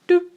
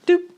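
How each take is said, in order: Both takes have the same delivery.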